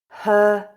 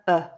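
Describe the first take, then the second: First: The word is said in full with h. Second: The word is reduced with no h. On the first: "I'll read the full form" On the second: "the weak form with the h sound dropped"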